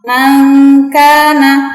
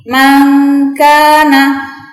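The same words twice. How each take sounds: The two takes are said the same way.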